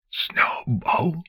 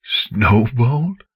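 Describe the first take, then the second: First: Barely breathed name, no sound; voiceless whisper. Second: Name spoken aloud in a ragged, broken voice; voiced now, rough with disbelief. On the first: Acted. Father mouthing his lost daughter's name in a whisper. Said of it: "no sound escaped his lips". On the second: Father saying his daughter's name aloud, ragged. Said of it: "his voice ragged".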